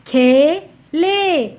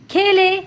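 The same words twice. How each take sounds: First: खे and ले slow and separate; sounding out. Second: Said in the usual way. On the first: Shown as a demonstration. Teacher reading to children, syllable by syllable. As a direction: stretch both halves: खे... ले. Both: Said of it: "उच्चारण करके पढ़ लिया".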